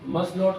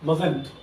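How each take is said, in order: First: It is said as two separate full words. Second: It is said as one contracted word.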